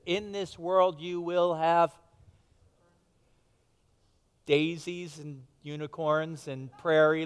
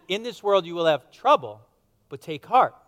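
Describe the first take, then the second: First: Slow, sing-song mock-sweet version of the verse; mock misquote. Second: Firm and louder, landing on trouble; correct quote. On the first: Pastor jokingly misquoting Jesus to the congregation, slow and mock-sweet. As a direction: drag it out like a fairy tale promise, tongue in cheek. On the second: Shown as a demonstration. Pastor giving the congregation the real words of Jesus, firm and louder. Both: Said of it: "No, he said".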